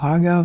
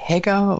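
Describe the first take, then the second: First: First vowel of Hager like "ah"; Hager as "Hahger". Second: First vowel of Hager like "eh"; Hager as "Hegger". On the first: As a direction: say Hager with a long ah, HAH-ger. (Hager mit langem a gesprochen, wie "Haager") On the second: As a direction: say Hager with an e sound, HEH-ger. (Hager mit ä gesprochen, wie "Hägger") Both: Shown as a demonstration. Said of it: "wie man ihn nennt".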